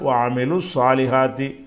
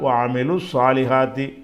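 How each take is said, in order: First: The two words are run together smoothly. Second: The same.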